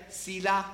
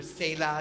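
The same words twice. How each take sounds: First: "Selah" said as SEE-lah, long ee in the first syllable; first pronunciation. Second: "Selah" said as SAY-lah, ay vowel in the first syllable; second pronunciation. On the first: Pastor showing the congregation one way to say the word, SEE-lah. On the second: Pastor offering the congregation the other way, SAY-lah. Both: Shown as a demonstration. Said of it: "You can pronounce it different ways".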